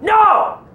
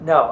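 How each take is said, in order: First: The word is yelled loudly and forcefully. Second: The word is said softly, without force. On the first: The speaker calls it right. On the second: The speaker calls it wrong.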